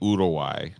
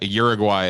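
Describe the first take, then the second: First: The name is said with local Spanish pronunciation. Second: The name is said with ordinary English pronunciation. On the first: This is how people there say it. "down down there they say Uruguay" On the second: This version is acceptable to use. "Uruguay is fine"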